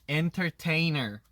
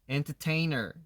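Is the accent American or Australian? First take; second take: American; American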